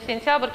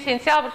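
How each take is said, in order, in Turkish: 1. Son ünsüzlerin arasına bir ünlü eklenir. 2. Son ünsüzler birlikte söylenir, ünlü yoktur. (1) "araya bir sait səs artırılmış olur" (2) "sentyabr sözünü"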